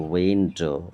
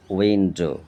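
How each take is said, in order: First: উইন্ডো drawn into উইন, ডো; split in two syllables. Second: Said in the usual way. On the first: Shown as a demonstration. Teacher showing pupils syllables, উইন্ডো as উইন-ডো. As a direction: break উইন্ডো into two beats. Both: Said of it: "দুবার উচ্চারণ হচ্ছে".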